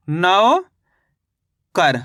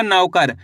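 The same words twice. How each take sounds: First: नौकर with a very long rising नौ, long pause, falling कर; syllable by syllable. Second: Said in the usual way. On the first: Shown as a demonstration. Teacher joining the syllables for learners, नौकर stretched in two parts. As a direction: split नौकर slowly into नौ and कर. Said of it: "तो मिलके बन गया अपने". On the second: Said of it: "शब्द का उच्चारण सही से सुनना है".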